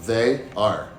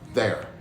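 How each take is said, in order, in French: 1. C'est prononcé comme deux mots séparés et complets. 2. C'est réduit à un seul mot court et contracté.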